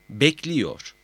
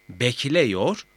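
First: "bekliyor" with i before -yor, falling; narrowed vowel. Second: "Bekliyor" said as bekleyor, rising; unnarrowed E vowel. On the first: ("bekliyor", daralmış i ile) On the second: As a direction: keep an e before -yor in "Bekliyor". ("Bekliyor", i yerine e ile) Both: Shown as a demonstration. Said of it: "A E ünlülerini daraltır".

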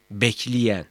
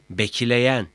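First: "bekleyen" said as bekliyen; colloquial narrowed vowel. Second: "bekleyen" with an open e before y; written-form vowel. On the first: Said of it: "Yanlış yazım". ("bekleyen", e yerine i ile) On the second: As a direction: keep the e unnarrowed in "bekleyen". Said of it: "Doğru yazım". ("bekleyen", açık e ile) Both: Shown as a demonstration.

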